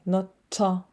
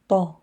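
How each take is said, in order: First: The consonant is released with a pushed puff of air. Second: The consonant is released dry, without extra air. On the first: The speaker calls it wrong. "not ta, no" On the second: The speaker calls it right. "Also dry"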